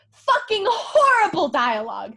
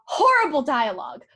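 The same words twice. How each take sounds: First: "Fucking horrible dialogue" louder, punching "horrible"; louder, stressed "horrible" as she repeats herself; emphatic repeat. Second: Said in the usual way. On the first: Real, not acted. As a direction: hit "horrible" hard in disgust.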